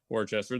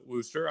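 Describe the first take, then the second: First: The name is said in full, as spelled. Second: The name is said short, like 'Wooster'. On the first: The speaker calls it wrong. "I know it's not" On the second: The speaker calls it right. "I know it's uh"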